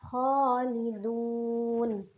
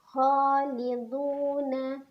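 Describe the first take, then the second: First: The word stops on a bare final consonant. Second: The word ends with a final vowel syllable. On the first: The reading stops at this word. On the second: The reading continues without stopping.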